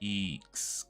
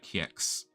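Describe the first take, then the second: First: The j is said like a long ee vowel. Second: The j is said like a y sound. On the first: "The J is pronounced like a long I as well" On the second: "I'm reading the what the J as a year"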